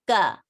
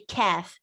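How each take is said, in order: First: The k is strong, with no puff of air. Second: The k is released with a puff of air. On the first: The speaker calls it right. "like a bit stronger" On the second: The speaker calls it wrong. "you should not say kaf"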